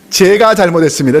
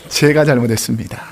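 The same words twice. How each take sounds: First: The apology sounds grudging and sarcastic. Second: The apology sounds sincere and humble.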